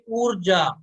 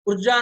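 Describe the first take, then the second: First: The first vowel is long. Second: The first vowel is short. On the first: The speaker calls it right. "वो दीर्घ स्वर है" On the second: The speaker calls it wrong. "नहीं होना चाहिए"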